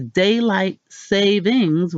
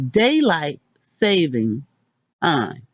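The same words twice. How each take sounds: First: "savings" said with a final S, like the plural; "daylight savings" with an added S on savings; the everyday wrong version, with the S; common plural form. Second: "saving" said with no S at the end; "daylight saving time" with a clean singular saving; careful corrected version, no S; correct singular form. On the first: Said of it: "What we've been saying is". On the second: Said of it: "How to actually say it is". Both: Shown as a demonstration.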